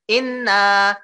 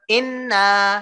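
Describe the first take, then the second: First: The nasal n sound is cut short. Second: The nasal n sound is cut short.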